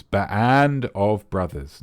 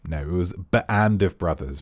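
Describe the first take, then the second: First: "Band of Brothers" said very slowly, each word weighted; "Band of Brothers" repeated slowly for emphasis; slow emphatic repeat. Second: Said in the usual way. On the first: Shown as a demonstration. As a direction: drag out "Band of Brothers" slowly with a firm falling end.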